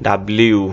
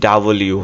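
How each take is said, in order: First: "ডাব্লিউ" with b and l joined, dab-li-u; childhood pronunciation. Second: "ডাব্লিউ" split as da-bo-li-u; broken into syllables. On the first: Teacher recalling childhood habit, old local pronunciation. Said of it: "আর আমরা ছোটবেলা থেকে". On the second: Teacher breaking the word up for students, syllable by syllable. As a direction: break "ডাব্লিউ" up clearly, vowel after the b. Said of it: "একটু ভাইঙ্গা বলি". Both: Shown as a demonstration.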